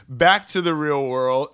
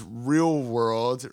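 First: Said in the usual way. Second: Air quotes voice. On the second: Shown as a demonstration. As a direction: drop the voice on "real world" as if making air quotes.

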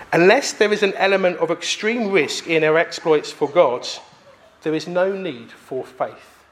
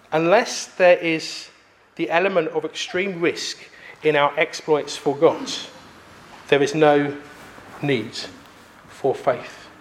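First: Said in the usual way. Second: Slower, lower, in separated phrases; emphatic repeat. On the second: Acted. Preacher repeating a provoking quote to the congregation, slow and emphatic. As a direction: let the quote sink in, pausing between phrases.

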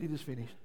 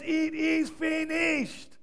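First: Soft, low, beaten; defeated murmur. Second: High, slow, triumphant shout; victory shout. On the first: Retold or imitated. Preacher imitating a defeated man, soft murmur. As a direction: let it drop like a man who lost. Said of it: "a defeated man just would have said". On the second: Acted. Preacher acting Jesus on the cross, triumphant shout. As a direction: ring it out like a winner. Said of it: "It's a victory shout".

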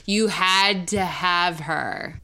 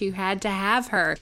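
First: "You had to have her" drawn out slowly; slow emphatic repeat. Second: Said in the usual way. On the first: Retold or imitated. Same quote repeated for emphasis.

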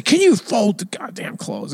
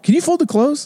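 First: Slow, high-pitched mock outburst without volume; hammed-up irritation, not really shouted; mock yell. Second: Much higher, light everyday request; easy, harmless household ask; mild request. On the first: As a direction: act out an exasperated demand, drawn out. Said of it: "I didn't yell". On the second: Retold or imitated. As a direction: ask it innocently, pitched way up. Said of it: "I'll just say".

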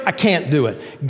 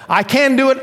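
First: Mock dejection, dropping away; depressed. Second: High, confident mock elation; upbeat. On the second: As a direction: act the emotional high, pitch way up. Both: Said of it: "Up, depressed".

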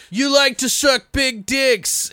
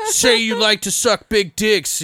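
First: Very high, slow, timid nerd voice; flustered nerd. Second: High, slow taunting jock; bullying jock. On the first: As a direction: nerd misreads the order in a panic. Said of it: "and he's like". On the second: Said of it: "He's like". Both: Retold or imitated.

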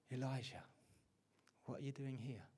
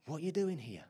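First: Hushed, much softer voice of God. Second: Said in the usual way. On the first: Retold or imitated. God to Elijah hiding in the cave, much softer. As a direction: drop to a gentle hush as God speaks. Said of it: "And the whisper of God came". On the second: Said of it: "Is God saying to you".

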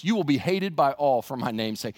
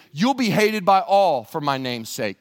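First: Said in the usual way. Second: Louder, slowed quote with weight on "You'll"; "You'll be hated by all" said slowly and loudly, each word weighted; solemn emphasis. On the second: Shown as a demonstration. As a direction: lean on every word of the verse. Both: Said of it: "That's an incredible verse".

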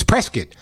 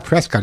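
First: Prescott rhyming with biscuit; local Prescott pronunciation. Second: Prescott with a full-vowel "cot" ending; mispronounced Prescott. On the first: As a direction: say Prescott as "PRESS-kit", second vowel reduced. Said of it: "that's the way you gotta say it". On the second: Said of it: "It's not Prescott". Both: Retold or imitated.

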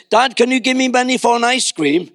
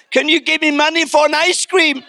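First: Put-on casual, higher-pitched kid asking Dad; little boy's breezy request; confident young son. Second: Put-on high, pleading child voice; hammed-up timid request from a cowering boy; mock fearful son. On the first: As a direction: ask easily, like a child sure of a yes. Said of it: "why can't you be like that with me". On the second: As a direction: beg humbly, as if unworthy to ask. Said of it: "he was so afraid of the, the response".

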